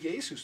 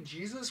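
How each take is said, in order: First: The name is said with Spanish pronunciation. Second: The name is said with English pronunciation. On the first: "what if you're Spanish and you say Jesus?" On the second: "you have to say Jesus"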